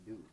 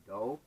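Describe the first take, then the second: First: Said in the usual way. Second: "do" rhymed with "no", as "doh"; spelling-based misreading. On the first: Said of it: "no, it's do". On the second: Retold or imitated. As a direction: read "do" like "dough", to match "no". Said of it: "The word D O".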